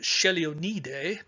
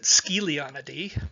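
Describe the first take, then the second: First: The name is said the Italian way. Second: The name is said the Australian way. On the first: "My Italian friend pronounced it" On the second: "my Australian buddies pronounce it"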